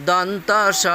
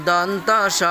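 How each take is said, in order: Both takes have the same delivery.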